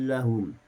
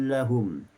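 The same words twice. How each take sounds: The two takes are said the same way.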